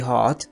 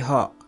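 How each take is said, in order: First: The final t sound is clearly pronounced. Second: The final t sound is dropped. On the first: The speaker calls it wrong. "We should not say hot" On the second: The speaker calls it right. "We should say hot"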